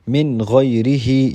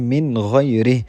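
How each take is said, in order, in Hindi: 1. आख़िरी शब्द एक छोटे अंतिम स्वर के साथ ख़त्म होता है। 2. आख़िरी शब्द अपने अंतिम स्वर के बिना ख़त्म होता है।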